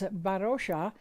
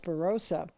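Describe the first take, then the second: First: The name is pronounced the Nepali way. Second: The name is pronounced the English way. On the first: This is the name as said in its own language. "In Nepali, her name is Barosha" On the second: This is how English speakers usually say the name. "most English-speaking people pronounce it as Barossa"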